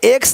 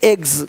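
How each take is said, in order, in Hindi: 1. यह शब्द तेज़ हिस्सिंग वाली s ध्वनि से खत्म होता है। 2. यह शब्द नरम z ध्वनि से खत्म होता है। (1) "एक्स नहीं"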